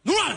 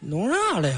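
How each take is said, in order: First: It sounds alarmed, confronting a robber. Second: It sounds like a puzzled question.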